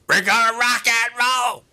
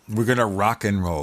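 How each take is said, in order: First: It is said in a forced put-on voice. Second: It is said in a natural everyday voice.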